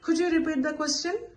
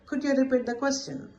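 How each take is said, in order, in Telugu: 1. చివరలో స్వరం పైకి లేస్తుంది. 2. చివరలో స్వరం కిందకి పడుతుంది. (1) "ఇది rising" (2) "with a falling intonation"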